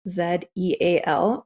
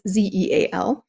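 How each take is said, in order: First: The Z is said as "zed", non-American style. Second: The Z is said as "zee", American style.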